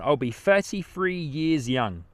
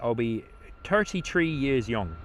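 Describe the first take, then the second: First: It is said in his usual accent. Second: It is said in an Irish accent.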